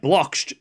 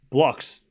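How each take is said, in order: First: The word ends with a tch sound. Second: The word ends with a plain ks sound. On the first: The speaker calls it wrong. "like catch or like match" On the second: The speaker calls it right. "I'll make sure I say it right"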